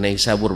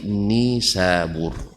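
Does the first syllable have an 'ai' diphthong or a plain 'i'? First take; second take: ai diphthong; plain i. First: The first syllable has an 'ai' diphthong. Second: The first syllable has a plain 'i' vowel. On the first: The speaker calls it wrong. "bukan Naisabur bacanya" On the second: The speaker calls it right. "tapi Nisabur"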